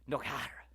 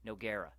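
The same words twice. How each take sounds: First: The G sound in the name is silent. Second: The G sound in the name is pronounced. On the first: It imitates a commentator's showy new pronunciation. The speaker calls it wrong. "He wasn't pronouncing the G" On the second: It is the familiar way everyone has said it. The speaker calls it right. "what we've been calling him for years"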